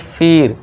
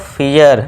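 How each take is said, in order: First: A short plain 'i' vowel with no glide. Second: The vowel glides from 'ee' into 'uh'. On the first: The speaker calls it wrong. "ना कि फिर" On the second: The speaker calls it right. "फियर ना कि फिर"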